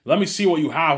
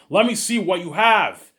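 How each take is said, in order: First: Louder, higher firm demand; stern demand. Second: Slow, loud, higher, every word pressed; insistent repeat. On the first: Teacher demands the hidden paper, firm loud demand. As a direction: insist on seeing it. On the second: Teacher repeats the demand to the stalling kid, slow and loud. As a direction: lose patience and spell it out slowly. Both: Retold or imitated.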